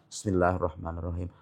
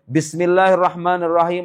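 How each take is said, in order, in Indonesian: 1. Frasa itu diucapkan pelan, dengan suara lirih. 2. Frasa itu diucapkan keras dengan volume biasa. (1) "Mazhab yang lain menyebutkan dibaca pelan-pelan" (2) "Mazhab Syafi'i"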